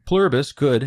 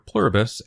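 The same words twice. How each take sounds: First: Pluribus pitched higher and louder, then falling; stress on Pluribus. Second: Said in the usual way. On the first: Shown as a demonstration. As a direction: lean hard on Pluribus. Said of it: "stresses Pluribus as a possible force for good". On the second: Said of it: "names the hive mind plainly".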